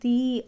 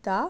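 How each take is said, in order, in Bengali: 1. 'the'-এর স্বরধ্বনি একটি দীর্ঘ 'ee'। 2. 'the'-এর স্বরধ্বনি একটি হ্রস্ব 'uh'। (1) "ভাওয়েলের আগে উচ্চারণ হবে দি" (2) "কনসনেন্টের আগে হবে দা"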